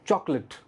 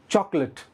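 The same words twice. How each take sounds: The two takes are said the same way.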